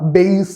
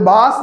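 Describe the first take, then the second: First: The vowel sounds like 'ay' in 'day'. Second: The vowel sounds like 'ah' in 'father'. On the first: The speaker calls it right. "ശരിക്കും അതെന്താടാ? ബേസ് ആണ്" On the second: The speaker calls it wrong. "ഇത് ബാസ് എന്നല്ല"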